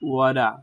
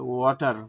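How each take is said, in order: First: It is said in an American accent. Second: It is said in a Bangladeshi accent. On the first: "আমেরিকানরা ওয়াটারকে ওয়াডা বলে" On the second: "বাংলাদেশিরা তাদের নিজস্ব অ্যাকসেন্টে ওয়াটার বলে"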